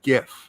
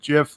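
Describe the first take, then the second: First: The word begins with a hard g sound. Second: The word begins with a j sound. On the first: "I pronounce it GIF" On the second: "like the peanut butter"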